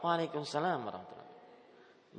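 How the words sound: It is said in an exaggerated, affected way.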